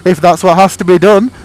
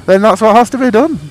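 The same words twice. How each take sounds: First: DONE rising at the end, loud and high; stress on DONE. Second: HAS punched, loud and high, rising; stress on HAS. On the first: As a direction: lift up on DONE. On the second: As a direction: hit the word HAS. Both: Pretend. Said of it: "I'm like".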